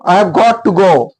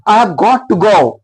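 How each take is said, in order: No difference in how they are said.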